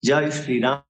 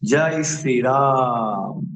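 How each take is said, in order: First: The vowel in Ram is kept short. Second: The vowel in Ram is held very long. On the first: The speaker calls it wrong. "বলি না আমরা" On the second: The speaker calls it right. "আমরা যখন বলি জয় শ্রীরাম ... রাম মানে প্লুত স্বর, অর্থাৎ দুই তালে অধিক"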